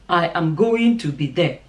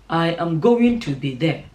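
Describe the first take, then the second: Both takes have the same delivery.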